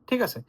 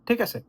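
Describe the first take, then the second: Both takes have the same delivery.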